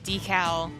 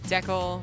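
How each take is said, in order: First: The word is said the American way. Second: The word is said the Canadian way. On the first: "It's Canada versus U S A" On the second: "It's Canada versus U S A"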